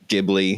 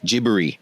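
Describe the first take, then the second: First: It is said with an American pronunciation. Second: It is said with a Japanese pronunciation. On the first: "the American is like Ghibli" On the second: "how it's supposed to be pronounced in Japanese"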